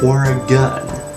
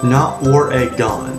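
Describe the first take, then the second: First: It is pronounced the way locals say it. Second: It is pronounced the way outsiders say it. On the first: The speaker calls it right. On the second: The speaker calls it wrong.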